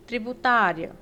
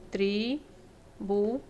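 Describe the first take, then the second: First: Said in the usual way. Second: "tributária" drawn out slowly syllable by syllable, leaning on tá; teacher slowly breaking "tributária" into syllables; slow syllable split. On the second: Shown as a demonstration. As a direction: spell out "tributária" slowly, tri-bu-tá-ria. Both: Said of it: "a sílaba mais forte é o tá".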